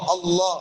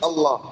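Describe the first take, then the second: First: The L is said heavy and full. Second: The L is said light and thin. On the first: "തഫ്ഹീം" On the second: "തർബീഖ്"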